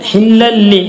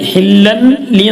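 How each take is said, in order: First: The n sound merges fully into the l. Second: The n sound is pronounced separately before l. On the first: The speaker calls it right. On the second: The speaker calls it wrong. "ഹില്ലൻ ലി എന്നല്ല"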